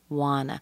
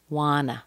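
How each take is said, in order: First: The two words are joined into one reduced word. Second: The same.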